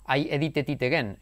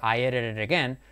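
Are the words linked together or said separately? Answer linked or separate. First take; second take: separate; linked. First: The words are said separately, without linking. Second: The words run together, linked into one flow. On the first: This is how a learner says it. The speaker calls it wrong. "si tú estás diciendo" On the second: This is how a native speaker says it. The speaker calls it right. "el nativo dice"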